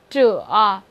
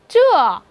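First: The pitch dips low and then rises. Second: The pitch falls sharply from high to low.

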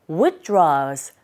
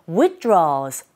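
The two takes are said the same way.

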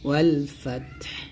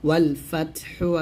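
First: The word ends on a bare final consonant. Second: The word ends with a short u vowel. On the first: The reciter stops at this word. "যদি এখানে থামেন তাহলে বলতে হবে ওয়ালফাতহ" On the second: The recitation continues without stopping. "ওয়ালফাতহা পেশ হু, ওয়ালফাতহু আছে"

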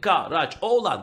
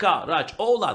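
First: The name is said with four syllables. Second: The name is said with four syllables.

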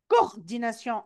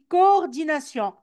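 First: The word begins with a single o sound. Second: The word begins with two separate o sounds. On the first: The speaker calls it wrong. "on ne dit pas coordination" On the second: The speaker calls it right. "on dit coordination"

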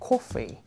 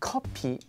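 First: The word begins with an F sound. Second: The word begins with a P sound. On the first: It names the drink. The speaker calls it right. "is it more like coffee?" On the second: It sounds like a word meaning a duplicate. The speaker calls it wrong. "So you don't say like copy"

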